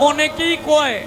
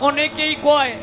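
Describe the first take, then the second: The two takes are said the same way.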